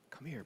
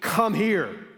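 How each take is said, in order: First: It is said in a tender, compassionate tone. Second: It is said in a commanding, authoritative tone. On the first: The one speaking is offering mercy and welcome. The speaker calls it right. "this tender, compassionate face of mercy" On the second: The one speaking is asserting power over the listeners. The speaker calls it wrong. "I'm the ruler of Egypt, authority, come here. It wasn't that"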